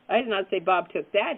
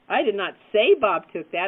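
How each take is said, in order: First: The stress is on the word that. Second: The stress is on the word say.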